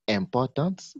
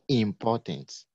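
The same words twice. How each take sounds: First: The first syllable is said like 'en'. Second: The first syllable is said like 'in'. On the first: The speaker calls it wrong. "we don't say importance" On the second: The speaker calls it right. "but we say importance. Is the sound in, not en"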